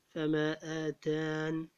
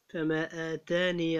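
First: The word ends without the final long vowel. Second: The word ends with the final long vowel. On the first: The reciter stops on this word. "تقرأ بحذف الياء وقفا، أي إذا وقفت على كلمة فما آتان تقرأ فما آتان في الوقف" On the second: The reciter continues into the next word. "في الوصل تقرأ فما آتاني الله"

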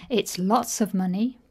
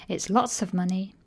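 The two takes are said the same way.

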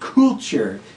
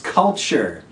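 First: The first vowel is a long U sound. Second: The first vowel is a short U sound. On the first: The speaker calls it wrong. "there's a tendency to say culture. But it's not culture" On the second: The speaker calls it right. "that's a short U sound"

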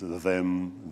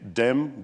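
First: The word begins with a TH sound. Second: The word begins with a D sound. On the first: "it means them" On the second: "if I say dem"

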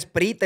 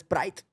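First: It is read letter by letter, Spanish style. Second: It is said with English pronunciation. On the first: This is how people in Spain say it. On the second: This is how others say it.

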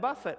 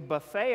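First: The stress is on the first syllable. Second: The stress is on the second syllable. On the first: The body is disciplined. The speaker calls it right. "Buffet means I discipline my body" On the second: The body is treated like a food spread. The speaker calls it wrong. "we buffet our body rather than"

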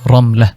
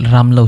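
First: The name is said with an Arabic pronunciation. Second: The name is said with a Bengali pronunciation. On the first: "যদি আমরা আরবিতে উচ্চারণ করি তাহলে রমলা হবে" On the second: "এটাকে বাংলায় রামলা উচ্চারণ হবে"

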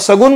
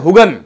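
First: The word begins with an s sound. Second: The word begins with an h sound.

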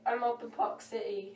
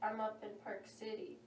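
First: It is said in a British accent. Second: It is said in a non-British accent. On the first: The speaker calls it right. "let me try that again" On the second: The speaker calls it wrong.

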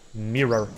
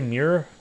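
First: The word is said carefully, every sound enunciated. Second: The word is said casually, with sounds slurred. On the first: The speaker calls it right. "I'm going to start really enunciating and saying mirror" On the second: The speaker calls it wrong. "I feel self-conscious because I say mirror"

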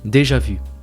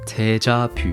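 First: It is pronounced with French sounds. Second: It is pronounced with Korean sounds.

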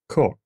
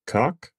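First: The vowel has a British coloring. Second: The vowel has an American coloring. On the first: "In Britain, they might say" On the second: "In the United States, we would just say"

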